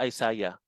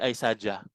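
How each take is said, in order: First: "Isaiah" as eye-SAH-yah; Y pronunciation. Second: "Isaiah" as eye-SAH-jah, with a hard j; wrong J pronunciation. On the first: Teacher asks why the name has a Y, "Isaiah" said eye-SAH-yah. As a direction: say "Isaiah" ending in a y sound. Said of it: "Bakit kaya Isaiah". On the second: Teacher shows what the name is not, "Isaiah" said eye-SAH-jah. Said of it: "Hindi Isaiah". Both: Shown as a demonstration.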